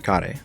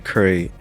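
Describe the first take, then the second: First: The word is said the Japanese way. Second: The word is said the English way. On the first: The speaker calls it right. "you would say kare" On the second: The speaker calls it wrong. "you wouldn't say curry desu ka"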